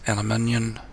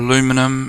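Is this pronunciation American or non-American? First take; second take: non-American; American. First: It is said in a non-American pronunciation. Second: It is said in an American pronunciation.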